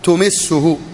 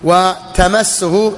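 First: The first vowel is u. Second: The first vowel is a. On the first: The verb comes from the four-letter form. "أمسه تمسه هذا الرباعي" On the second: The verb comes from the three-letter form. "من الثلاث مسه"

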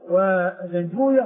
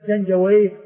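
First: The name ends in -uyah, with a long u. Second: The name ends in -awayh, with a silent y. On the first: This is the hadith scholars' way of saying the name. "بسكون الواو وضم ما قبلها وفتح الياء وسكون الهاء" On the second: This is the grammarians' way of saying the name. "الواو مفتوحة والياء ساكنة والهاء بعدها ساكنة"

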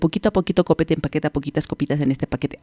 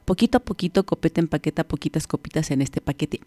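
First: It is said very fast, at top speed. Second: It is said faster than an ordinary speed. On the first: "Mucho más rápido" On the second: "más rápido, vamos"

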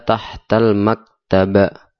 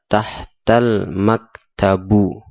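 First: The last word ends in the vowel a. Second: The last word ends in the vowel u. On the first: "Atau dibaca tahtal maktaba" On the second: "Tidak boleh dibaca tahtal maktabu"

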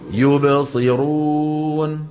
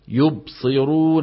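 First: The b sound is released with a small bounce. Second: The b sound is closed with no bounce. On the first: The speaker calls it right. "شو لازم يقول؟" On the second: The speaker calls it wrong. "هذا الخطأ"

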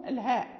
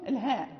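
No difference in how they are said.

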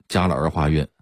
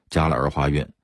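Both takes have the same delivery.

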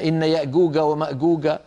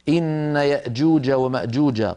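First: The jeem is pronounced as a hard g. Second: The jeem is pronounced as a j sound. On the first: The speaker calls it wrong. "هذا كله لا يصح" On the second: The speaker calls it right. "لابد أن ننطق الجيم كما رويت لنا"

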